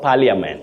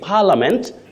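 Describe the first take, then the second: First: The middle i vowel is pronounced. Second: The middle i vowel is not pronounced. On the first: The speaker calls it wrong. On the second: The speaker calls it right. "That I is silent"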